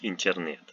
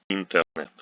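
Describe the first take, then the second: First: The t and n before e are soft. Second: The t and n before e are hard. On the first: The speaker calls it wrong. "nobody says internet" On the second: The speaker calls it right. "the preceding t and n are not softened"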